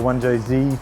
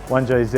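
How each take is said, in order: First: The Z is said the American way. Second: The Z is said the non-American way.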